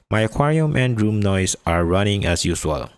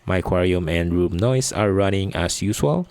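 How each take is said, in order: First: The voice has added warmth, clarity and brightness. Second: The voice has no added equalization or processing. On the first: "with E Q applied" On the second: "with no E Q or processing"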